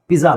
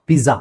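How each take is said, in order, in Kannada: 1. ಮಧ್ಯದ ವ್ಯಂಜನ ಒಂದು ಘೋಷ 'dz' ಶಬ್ದ. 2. ಮಧ್ಯದ ವ್ಯಂಜನ ಒಂದು ಘೋಷ 'dz' ಶಬ್ದ.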